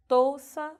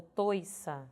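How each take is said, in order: First: "touça" devagar, com OU forte; variante com OU. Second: "toiça" devagar, com OI claro; variante com OI. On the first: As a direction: marque o U de "touça". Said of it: "ora grafado com ou". ("touça" dito tôu-ça) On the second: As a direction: marque o I de "toiça". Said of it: "ora vou ter grafado com oi". ("toiça" dito tôi-ça) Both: Shown as a demonstration.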